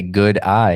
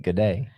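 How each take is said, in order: First: "good eye" said with a wide eye vowel. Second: "good day" in an Australian accent; "good day" as an Aussie would say it. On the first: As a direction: say "good eye" to sound like "good day". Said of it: "You just have to say". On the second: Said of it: "it sounds like". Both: Shown as a demonstration.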